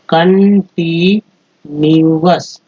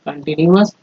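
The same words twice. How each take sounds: First: continuous spelt out slowly, part by part; slow syllable-by-syllable. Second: Said in the usual way. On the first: Shown as a demonstration. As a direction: break continuous into slow parts. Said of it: "इसको अस बोलते हैं". (Continuous धीरे-धीरे टुकड़ों में) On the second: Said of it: "तो continuous".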